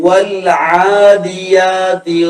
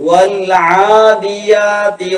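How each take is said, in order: The two takes are said the same way.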